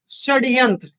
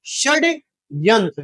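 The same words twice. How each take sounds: First: Said in the usual way. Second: षड्यंत्र said very slowly, syllable by syllable; slowly spelled out. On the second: Shown as a demonstration. Teacher repeating षड्यंत्र for students, slowly spelled. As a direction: draw out षड्यंत्र for the class.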